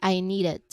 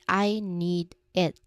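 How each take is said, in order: First: The D of 'need' flows straight into 'it'. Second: The words are separate, with a stop after 'need'. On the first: "So it sounds like I need it" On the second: "if we say these words separately, it sounds like I need it"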